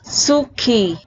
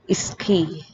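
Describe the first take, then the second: First: The u vowel after s is pronounced. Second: The u vowel after s is dropped.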